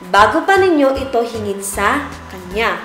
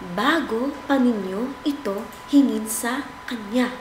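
First: It is spoken at a normal volume. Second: It is spoken in a soft voice. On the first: "Normal na boses" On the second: "Mahinang boses"

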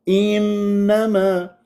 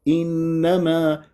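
First: The opening vowel is forced and exaggerated. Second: The opening vowel is full and gentle. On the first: The speaker calls it wrong. "هذا تعسف" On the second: The speaker calls it right. "اللي صحيح انما"

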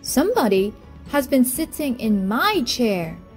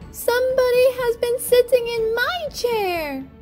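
First: It is said in a middle-sized voice. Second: It is said in a wee little voice.

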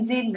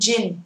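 First: The word starts with a soft z-like sound. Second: The word starts with a j sound. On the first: The speaker calls it wrong. "Ai mà đang đọc kiểu như là zin zin zin là âm này sai" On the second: The speaker calls it right. "âm này phải là gin gin gin"

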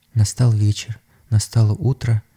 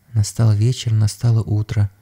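Both takes have the same delivery.

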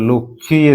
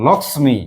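First: The middle consonant cluster is reduced and softened. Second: The middle consonant cluster is pronounced fully and clearly. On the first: This is how people say it in everyday speech. The speaker calls it wrong. "বাড়িতে নতুন বউ হলে কি বলে লক্ষ্মী এসেছে" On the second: This shows the letters the word is spelled with. The speaker calls it right. "এই হচ্ছে আসল উচ্চারণ লক্ষ্মী"

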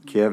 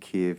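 First: The name is pronounced the Russian way. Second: The name is pronounced the Ukrainian way. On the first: It follows the Russian form of the name. "the Russian pronunciation" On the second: It shows solidarity with the Ukrainian people. "more in tune with the Ukrainian pronunciation"

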